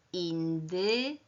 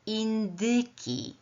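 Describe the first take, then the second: First: "indyki" broken as indy, long pause, kiii; word built in parts. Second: "Indyki" slow but joined as one word; blended word. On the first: Teacher building the new word, "indyki" in separated parts. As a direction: hold back the "ki" of "indyki", then stretch it. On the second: Teacher confirming the new word, "Indyki" slowly blended. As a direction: say "Indyki" whole, slowly and higher. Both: Shown as a demonstration. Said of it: "to otrzymam wyraz".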